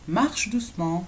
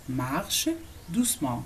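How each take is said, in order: First: Said in the usual way. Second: "Marche", a clear pause, then "doucement"; word by word. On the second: Shown as a demonstration. Teacher models "walk gently" for learners, word by word. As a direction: separate the two words for learners. Teacher separates the two words.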